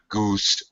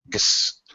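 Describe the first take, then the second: First: The vowel is long and drawn out. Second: The vowel is short and reduced. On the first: The speaker calls it wrong. "Not goose" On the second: The speaker calls it right. "The last syllable is is unstressed, so it's very short"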